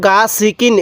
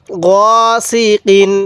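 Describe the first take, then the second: First: গা সিকিন with the first vowel wrongly drawn out; wrong long vowel. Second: গসিকিন read very slowly with a short গ, not গা; correct recitation. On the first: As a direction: show the mistake by stretching গা. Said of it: "এরকমভাবে পড়ব না". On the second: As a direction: say গসিকিন slowly, keeping the first vowel short. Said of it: "কেউ গা সিকিন এরকমভাবে পড়ব না". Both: Shown as a demonstration.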